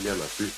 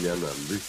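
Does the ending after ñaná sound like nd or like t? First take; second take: t; nd. First: The ending starts with a plain t sound. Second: The ending starts with a nasal nd sound. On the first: The speaker calls it wrong. "Allí yo no digo ñaná ti" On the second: The speaker calls it right. "digo ñanandí"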